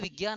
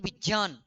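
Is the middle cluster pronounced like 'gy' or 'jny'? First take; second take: gy; jny. First: The middle cluster sounds like 'gy'. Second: The middle cluster sounds like 'jny'. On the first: The speaker calls it wrong. "ये शब्द विज्ञान है ही नहीं" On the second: The speaker calls it right. "ये शब्द विज्ञान।"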